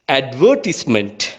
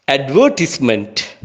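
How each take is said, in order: First: It is said in a British English accent. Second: The same.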